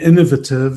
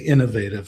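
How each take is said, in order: First: It is said with a British pronunciation. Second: It is said with an American pronunciation. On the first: This is how the guest's side says it. "is the way they say" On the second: This is how American listeners say it. "for all our American English speakers"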